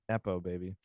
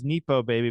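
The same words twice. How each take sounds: First: Nepo is said like the start of nepotism. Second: Nepo is not said like the start of nepotism. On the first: "but then there's nepotism, so you think maybe it would be Nepo baby" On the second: "I read it in my head as Nepo baby"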